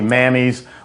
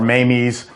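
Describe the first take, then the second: First: The first vowel sounds like the one in cat. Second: The first vowel sounds like the one in day. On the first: "it sounds like it should be Mammy's" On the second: "or Mamie's"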